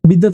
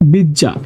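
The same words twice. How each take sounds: First: The middle consonants are said as written. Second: The middle consonants merge into one changed sound. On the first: "বিদ্যা থেকে" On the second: "হয়ে যাবে বিদ্যা"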